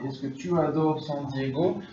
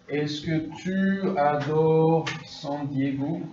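First: Said in the usual way. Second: Slowed right down, every syllable spaced out; drawn-out teacher demo of the question; slow model question. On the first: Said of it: "ça c'est la forme est-ce que". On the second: Shown as a demonstration. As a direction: model it slowly for the class to copy. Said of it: "Par exemple".

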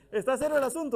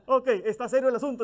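First: Said in the usual way. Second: Riéndose al decirlo, algo más rápido; riendo. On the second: Real, not acted. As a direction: suelta la frase entre risas. (con una risa sincera)

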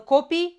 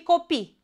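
First: "copii" stressed at the start, CO-pii; stress on first syllable. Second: "copii" stressed at the end, co-PII; stress on last syllable. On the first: Teacher contrasting homographs, "copii" stressed on CO. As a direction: hit the O of "copii". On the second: Teacher contrasting homographs, "copii" stressed on PII. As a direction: land on the final I of "copii". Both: Shown as a demonstration. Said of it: "dar se citesc diferit".

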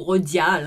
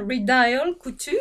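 First: Redial said the French way; French pronunciation. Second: Redial Couture with Redial anglicised, drawn out; slow English-style Redial before Couture; English pronunciation. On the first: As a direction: offer Redial as French "ro-dyal". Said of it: "je sais pas comment ça se prononce". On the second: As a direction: say Redial as "ree-dial", slowly. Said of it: "je prononce toujours les trucs à l'anglaise". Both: Shown as a demonstration.

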